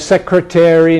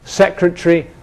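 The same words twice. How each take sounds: First: American accent with a full suffix vowel. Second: British accent with a reduced suffix vowel. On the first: This is the older pronunciation. "Americans say" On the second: This is the newer pronunciation. "the British one"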